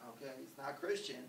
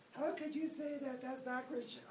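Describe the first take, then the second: First: Said in the usual way. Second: High, squeaky voice of an indignant critic; shrill, mocking pious objection; mock pious objector. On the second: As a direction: play the scandalized churchgoer in a high voice. Imagined pious objector protests.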